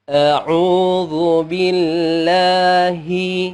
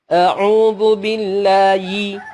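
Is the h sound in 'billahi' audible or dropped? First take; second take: audible; dropped. First: The h sound is said gently with released air. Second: The h sound in billahi is dropped entirely. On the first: The speaker calls it right. "Harusnya pelan-pelan, kemudian mengeluarkan udara" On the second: The speaker calls it wrong. "Lihat, hilang sama sekali"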